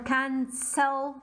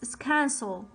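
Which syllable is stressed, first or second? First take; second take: second; first. First: The stress is on the second syllable. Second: The stress is on the first syllable. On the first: The speaker calls it wrong. "I'm not saying listen or cancel" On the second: The speaker calls it right. "I'm not stressing on the second syllable"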